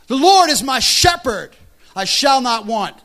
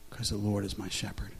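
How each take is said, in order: First: Proclaimed scripture. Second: Quiet faith. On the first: Pastor quoting scripture to his church, loud proclamation. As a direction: Lord is my shepherd cried out loud and high, slow. Shouted scripture at sermon peak. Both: Real, not acted.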